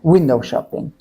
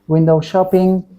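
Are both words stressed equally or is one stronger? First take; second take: unequal; equal. First: One word is stressed more strongly than the other. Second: Both words get the same level and stress. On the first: The speaker calls it right. "We should say window shopping" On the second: The speaker calls it wrong. "in same tone"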